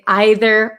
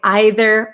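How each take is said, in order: First: The word is said with a British pronunciation. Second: The same.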